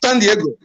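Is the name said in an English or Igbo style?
English. It is said with an English-style pronunciation. The speaker calls it wrong. "not San Diego"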